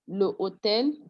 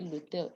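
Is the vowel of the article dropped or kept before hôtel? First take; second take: kept; dropped. First: The article's vowel is kept before hôtel. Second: The article's vowel is dropped before hôtel. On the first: The speaker calls it wrong. "instead of doing le hôtel" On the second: The speaker calls it right. "we pronounce the two together"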